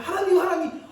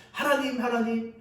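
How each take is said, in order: First: 하나님, 하나님 called out high and loud with a laugh in it; protesting cry. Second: Said in the usual way. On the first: Acted. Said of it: "그러자 하박국이 따집니다". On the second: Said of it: "그렇게 기도하면서".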